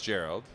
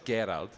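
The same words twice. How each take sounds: First: It starts with a soft J-like G sound. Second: It starts with a hard G sound. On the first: This is the anglicized form of the name. "anglicized, everybody says Gerald" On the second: This is the original German form of the name. "there's no soft G's, so it's Gerald"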